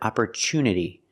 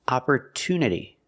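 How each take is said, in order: First: The middle consonant is a ch sound. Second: The middle consonant is a clear t sound. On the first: The speaker calls it wrong. "we don't pronounce it opportunity. The T U is not pronounced with the ch sound" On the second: The speaker calls it right. "It's pronounced with a T sound"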